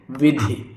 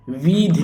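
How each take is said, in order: First: विधि as a quick "vi-dhi"; short first i. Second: Slow वीधि as "vee-dhi"; long first i. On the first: Teacher correcting the word, विधि with short "i". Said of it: "विधि ये शुद्ध होगा". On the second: Teacher showing the mistake, वीधि with long "ee". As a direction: drag the first vowel of वीधि. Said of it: "वीधि नहीं". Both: Shown as a demonstration.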